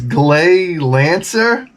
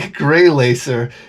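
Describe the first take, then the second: First: The first word has an L sound, not R. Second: The first word has an R sound, not L. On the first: The speaker calls it right. "It's Glay Lancer" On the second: The speaker calls it wrong. "It's not Gray Gray Lacer"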